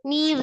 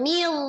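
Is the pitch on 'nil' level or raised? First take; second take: level; raised. First: The syllable is said at a plain, level pitch. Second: The syllable is said with a raised pitch. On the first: The speaker calls it right. "nil biasa aja" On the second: The speaker calls it wrong. "jangan nil. Jangan dinaikkan"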